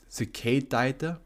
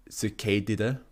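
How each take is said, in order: First: "Cicadidae" as a slow question, sih-kay-TIE-tuh; puzzled pronunciation. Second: "Cicadidae" with a KAY in the middle and DID-uh ending; unsure pronunciation. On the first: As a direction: slowly try "Cicadidae" with an EYE sound, rising at the end. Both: Shown as a demonstration. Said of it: "How do you pronounce this shit?".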